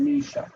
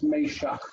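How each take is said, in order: First: Meshach said as MEE-shak; anglicised Meshach, "mee" in the first syllable; English pronunciation. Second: Meshach said as may-SHAKH; Hebrew pronunciation. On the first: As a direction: give Meshach its familiar English long "ee". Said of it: "in English we're used to saying". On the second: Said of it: "It's a little bit different pronunciation". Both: Shown as a demonstration.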